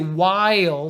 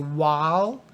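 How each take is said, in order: First: The vowel is said strong and full. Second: The vowel is said soft and light. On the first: The speaker calls it wrong. "Don't say while" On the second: The speaker calls it right. "say while"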